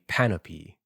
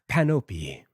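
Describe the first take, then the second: First: The name ends with a final 'ee' sound. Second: The name ends without a final 'ee' sound. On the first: The speaker calls it right. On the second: The speaker calls it wrong.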